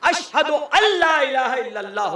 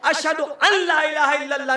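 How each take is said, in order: First: The n merges silently into the following l. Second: The n before 'la' is pronounced separately. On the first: The speaker calls it right. "होगा" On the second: The speaker calls it wrong. "नहीं होगा"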